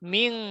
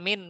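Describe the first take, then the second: First: The word ends in a nasalized ng sound. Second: The word ends in a clear dental n. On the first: The speaker calls it right. "ময় রসইকার অনুস্বর" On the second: The speaker calls it wrong. "মিন না, মিন বলে কি দন্ত ন হচ্ছে"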